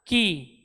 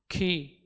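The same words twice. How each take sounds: First: The k has only a light puff of air. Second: The k has a strong, breathy burst of air. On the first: The speaker calls it right. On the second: The speaker calls it wrong.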